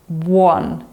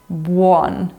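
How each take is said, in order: First: The U vowel is clearly pronounced before the o. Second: The U vowel is clearly pronounced before the o.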